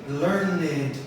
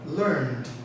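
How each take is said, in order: First: The ending is said as an extra syllable. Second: The ending adds no extra syllable. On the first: The speaker calls it wrong. "we don't say learned or called. No, that's a common mistake" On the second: The speaker calls it right. "So we say called, learned"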